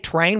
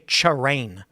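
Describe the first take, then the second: First: The word begins with a plain 't' sound. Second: The word begins with a 'ch' sound. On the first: "We don't say" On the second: "we say"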